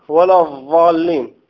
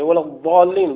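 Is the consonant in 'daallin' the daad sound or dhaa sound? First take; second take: dhaa; daad. First: The word is said with a dhaa-like sound. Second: The word is said with the daad sound. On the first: The speaker calls it wrong. "فيأتي بالضاء أو بزاي" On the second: The speaker calls it right. "بالضاد"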